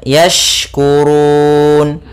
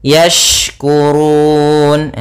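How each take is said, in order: The two takes are said the same way.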